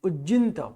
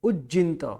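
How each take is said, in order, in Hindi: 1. "j" ध्वनि खिंची हुई और दोहरी है। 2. "j" ध्वनि खिंची हुई और दोहरी है।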